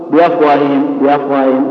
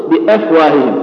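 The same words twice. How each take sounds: First: بأفواههم with the hamza blurred into the vowels; melted hamza error. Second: بأفواههم with the hamza fully sounded after bi; correct clear hamza. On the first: Teacher showing the mistake, melted hamza in بأفواههم. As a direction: let the glottal stop in بأفواههم dissolve. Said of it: "هذا خطأ". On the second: Teacher showing the proper form, clear hamza in بأفواههم. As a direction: articulate the glottal stop in بأفواههم. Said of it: "الأصل أنك تقول". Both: Shown as a demonstration.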